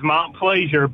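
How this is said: The name is said with an English pronunciation.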